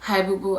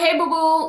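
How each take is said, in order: First: The voice sounds weak and sick. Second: The voice sounds healthy and normal.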